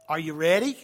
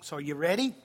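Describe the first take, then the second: First: Pumped, rousing call to the room; rally the crowd, ready?; hyped-up call. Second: Said in the usual way. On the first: Real, not acted. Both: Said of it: "asks twice, louder second".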